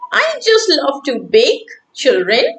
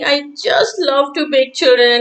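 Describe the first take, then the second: First: There is a pause before "children". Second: There is no pause before "children".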